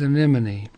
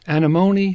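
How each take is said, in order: First: The stress is not on the third syllable. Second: The stress is on the third syllable. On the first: This is the English common name. "the English common is anemone" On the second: This is the Latin genus name. "the Latin generic is anemone"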